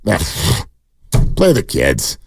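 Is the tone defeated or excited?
defeated. The tone sounds defeated and resigned. The speaker has given up on the team. "here's the other tone. That means you're defeatist"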